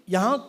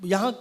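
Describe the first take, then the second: No difference in how they are said.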